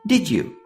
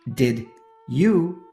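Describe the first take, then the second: First: The D and Y blend into a J sound. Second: The D and Y are said as separate sounds. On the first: The speaker calls it right. "They blend D with Y together, making it sound like J" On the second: The speaker calls it wrong. "that may be the standard way, but it's not how the natives talk"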